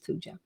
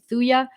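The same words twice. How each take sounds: First: The J sound is clearly pronounced. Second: The J sound is left silent. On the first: "Some people pronounce it Thuja" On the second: "The J is silent"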